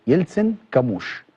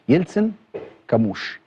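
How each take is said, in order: The two takes are said the same way.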